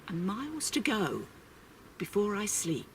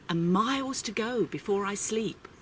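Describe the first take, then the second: First: The echo drops to a hush; softer closing repeat. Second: Said in the usual way. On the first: A narrator's reading. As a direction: let the last line fade away softly. Repeated closing line of poem.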